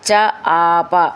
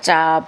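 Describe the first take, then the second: First: The parts are said apart, unlinked. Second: The parts run together as one word.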